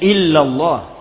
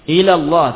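First: The l sound is long and doubled. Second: The l sound is short and single. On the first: The speaker calls it right. "Seharusnya dia membaca illallah" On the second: The speaker calls it wrong. "tanpa tasydid"

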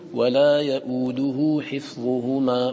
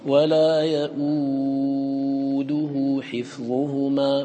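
First: The vowel after the hamza is held short. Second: The vowel after the hamza is held medium length.

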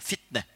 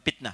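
First: The word begins with an F sound. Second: The word begins with a P sound. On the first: The speaker calls it right. "Pakai F ya" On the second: The speaker calls it wrong. "bukan fitnah"

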